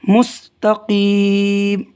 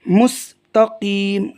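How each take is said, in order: The two takes are said the same way.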